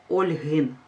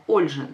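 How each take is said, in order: First: Ольгин said with a plain hard г, as the mistake; Ольгин with г, not ж; wrong form. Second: Ольжин said with ж in place of г; Ольжин with ж, stressed and settled; correct form. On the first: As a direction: say Ольгин keeping the г unchanged. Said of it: "ми не кажемо". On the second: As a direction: say Ольжин with a clear ж sound. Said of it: "ми кажемо". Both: Shown as a demonstration.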